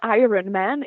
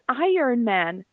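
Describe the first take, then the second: First: Iron is said as spelled, R before the O. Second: Iron is said like 'iorn', R after the O. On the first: The speaker calls it wrong. "It's not Iron Man" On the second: The speaker calls it right. "It's Iron Man"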